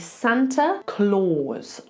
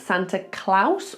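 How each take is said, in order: First: Claus has an 'aw' vowel like claws. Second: Claus has an 'ow' vowel sound. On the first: The speaker calls it right. "like claws" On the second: The speaker calls it wrong. "with an ow sound on the end"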